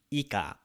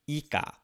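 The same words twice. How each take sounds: First: Ika with the first i whispered away, like "ka"; swallowed i. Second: Said in the usual way. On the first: Shown as a demonstration. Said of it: "the first sound is swallowed". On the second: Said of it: "We usually don't say ika".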